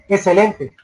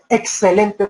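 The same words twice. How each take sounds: First: The x is pronounced poorly, not fully. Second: The x is pronounced clearly and fully. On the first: The speaker calls it wrong. "no pronuncian bien las X" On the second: The speaker calls it right. "no dicen excelente"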